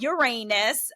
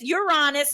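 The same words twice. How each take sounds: First: It is said sounding like 'your anus'. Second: It is said without sounding like 'your anus'. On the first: The speaker calls it wrong. "not Uranus" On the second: The speaker calls it right. "it is Uranus"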